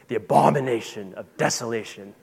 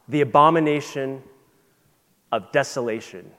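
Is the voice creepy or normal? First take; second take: creepy; normal. First: It is said in a put-on creepy voice. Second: It is said in a normal speaking voice.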